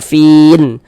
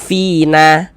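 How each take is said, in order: First: The word ends on the nun consonant. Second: The word ends on a short vowel. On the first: The speaker calls it right. "kalau kita berhenti di huruf nun kita baca fin" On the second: The speaker calls it wrong. "Jangan dibaca fina"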